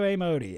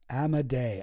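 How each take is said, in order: First: The name ends with an 'ee' sound. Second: The name ends with an 'ay' sound. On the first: The speaker calls it wrong. "I've always been saying A Modi" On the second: The speaker calls it right.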